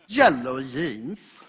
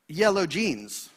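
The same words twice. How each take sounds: First: It is pronounced the Swedish way. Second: It is pronounced the English way. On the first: "in Swedish" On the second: "something you say very often in English"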